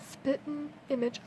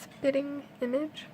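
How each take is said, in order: First: The g at the end of spitting is dropped. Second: The g at the end of spitting is pronounced. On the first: It is the casual form used in normal speech. "I do not put the G in it" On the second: It is the careful form used when reading aloud. "I guess I shouldn't have said it that way"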